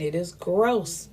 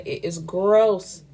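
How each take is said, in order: First: "gross" stretched long and falling, no extra volume; slow, understated verdict that lingers on "gross"; drawn-out stress on gross. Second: Slow and firm, "gross" hit hard and stretched out; emphatic repeat stressing gross. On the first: Giving her verdict on everybody being connected, "gross" drawn out. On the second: Saying it again for the listeners, "gross" emphatically drawn out. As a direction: drive the point home with a long, weighty "gross". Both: Real, not acted. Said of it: "I will say it again".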